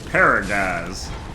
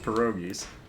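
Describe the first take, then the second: First: It is said in a mangled Southern accent. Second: It is said in a plain standard accent.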